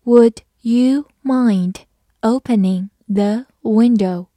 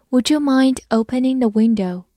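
First: Slow, careful word-by-word read. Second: Said in the usual way. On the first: Shown as a demonstration. Teacher reading slowly for students. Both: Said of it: "慢慢来读".

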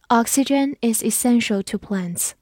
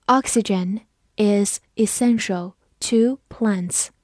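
First: Said in the usual way. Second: Slow, word-by-word model sentence; slow read-through. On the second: Shown as a demonstration. Teacher models a science sentence for learners, slow read-through. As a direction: leave clear pauses between the words. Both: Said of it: "我们慢读一遍".

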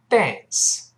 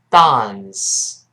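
First: American "dance" with the vowel of "cat"; American pronunciation. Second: British "dance" with a long open ah; British pronunciation. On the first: Teacher shows learners the easier way, American "dance". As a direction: spread the lips wide for an American "dance". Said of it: "美音中把啊一般都变成哎这个咧嘴的动作". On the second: Teacher demonstrates for learners, British "dahns". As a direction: say a drawn-out British "dahns", low falling tone. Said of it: "在英式发音里边发啊的声音". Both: Shown as a demonstration.

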